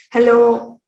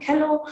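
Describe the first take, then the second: First: Said in the usual way. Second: "Hello" said as kello; k replacing h. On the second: Shown as a demonstration. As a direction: begin "Hello" with a k sound. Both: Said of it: "again the k sound".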